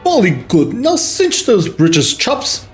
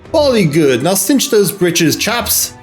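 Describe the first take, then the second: First: It is read in a put-on English accent. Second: It is read in the speaker's ordinary accent.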